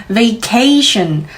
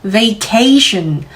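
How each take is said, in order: The two takes are said the same way.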